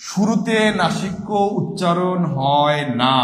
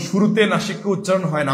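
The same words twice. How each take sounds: First: Slow, deliberate, every word laid down; slow emphatic answer. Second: Said in the usual way. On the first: Shown as a demonstration. Teacher drilling the correct answer into students, slow and deliberate. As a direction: spell the answer out slowly so it sticks. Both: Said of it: "বারবার বলছি".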